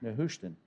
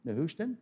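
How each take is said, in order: First: "Nehushtan." said with a falling tune, as an answer; settled statement. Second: "Nehushtan?" asked with a rising tune; questioning rise. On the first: Preacher giving the answer himself, "Nehushtan." falling flat and final. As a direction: drop "Nehushtan." down and close it off. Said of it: "I understand". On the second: Preacher quizzing the congregation, "Nehushtan?" rising like a question. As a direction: float "Nehushtan?" up as a question to the room. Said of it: "Sunday school grads?". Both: Shown as a demonstration.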